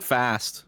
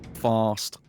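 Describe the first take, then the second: First: The word has a short, flat American vowel. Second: The word has a long, open British vowel. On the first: The speaker calls it wrong. "I'm too into the American brains. I messed it up" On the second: The speaker calls it right. "What are you supposed to say?"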